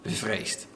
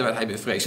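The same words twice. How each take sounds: First: Bevreesd whispered, much lower and softer. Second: Said in the usual way. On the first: Shown as a demonstration. Preacher rereading the verse, whispering bevreesd to the congregation. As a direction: breathe the word bevreesd with no voice. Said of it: "Toen zegt Matthäus". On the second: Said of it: "Toen hij op de sterke wind lette".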